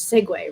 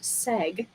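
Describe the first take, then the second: First: The word has two syllables, ending in 'way'. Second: The word has one syllable, without 'way'. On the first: The speaker calls it right. "I learned that the word segue, S E G U E, is segue" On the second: The speaker calls it wrong. "I always thought it was just seg, and like they dropped the way"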